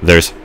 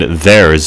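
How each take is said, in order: First: The final Z sound is weak. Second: The final Z sound is clearly voiced. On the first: "That's how I would have pronounced it 2 years ago" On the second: "I make sure to pronounce the Z there as well"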